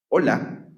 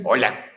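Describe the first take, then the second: First: It is said at a normal, natural speed. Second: It is said very fast, like double speed.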